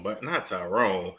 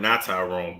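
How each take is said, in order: First: Low, dry stress on not. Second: Not Tyrone, said low with not leaned on; low, pointed not Tyrone; stress on not. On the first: Repeating the correction, heavy stress on not. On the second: Correcting the host's name, low stress on not. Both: Shown as a demonstration.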